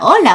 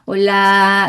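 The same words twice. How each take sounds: First: The vowel is kept short. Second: The vowel is drawn out long. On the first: The speaker calls it right. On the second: The speaker calls it wrong.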